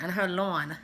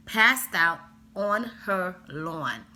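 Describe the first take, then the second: First: Said in the usual way. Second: Slow, emphatic words in a slight Jamaican accent. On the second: Real, not acted. Telling a friend about the kid on the lawn, slow with a Jamaican lilt. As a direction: her Jamaican accent slipping out on the word lawn. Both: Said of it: "God, my Jamaican accent".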